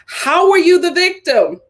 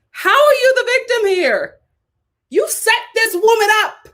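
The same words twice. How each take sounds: First: Louder "are" questioned; stress on are. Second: Much higher, louder indignation; outraged disbelief. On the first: Shown as a demonstration. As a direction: push "are" in disbelief. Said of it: "repeated question". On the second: Real, not acted. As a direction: rise high in outrage. Outraged rhetorical peak.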